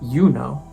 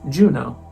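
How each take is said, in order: First: The name has its classical Latin pronunciation. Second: The name has its usual English pronunciation. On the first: "in Latin pronounced" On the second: "in English"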